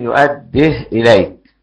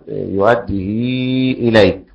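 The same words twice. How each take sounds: First: The h has no vowel after it. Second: The h is followed by a long i vowel. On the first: "واللي بيسكن" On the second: "فالذي يقرأ بالصلة"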